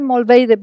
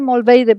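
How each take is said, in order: First: The name is said with a Spanish accent. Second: The name is said with a Spanish accent.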